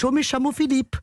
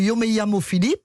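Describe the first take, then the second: First: It is said in an Argentine accent. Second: It is said in a standard Spanish accent.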